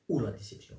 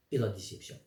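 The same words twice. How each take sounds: First: Corrective punch on "ou", then falling; stress on OU. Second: Said in the usual way. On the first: Real, not acted. Speaker correcting his own wording, stress on "ou". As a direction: hit "ou" to replace the wrong word. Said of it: "c'est mieux".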